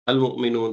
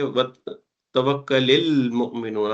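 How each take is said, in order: First: The opening alif sound is pronounced separately. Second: The alif is skipped, linking to the previous word. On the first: The word is read on its own. "जैसे यहाँ पे लिखा हुआ ही है" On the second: The word is read joined to the previous word. "पिछले से मिला के पढ़ेंगे ... आप अलिफ ... इसको स्किप कर देंगे"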